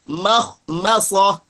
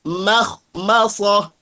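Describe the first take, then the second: The two takes are said the same way.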